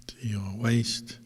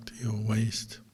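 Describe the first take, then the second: No difference in how they are said.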